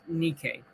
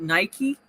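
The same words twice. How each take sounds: First: The word is said with its Greek pronunciation. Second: The word is said with its English pronunciation. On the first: "but in Greek it's pronounced Nike" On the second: "we pronounce it Nike"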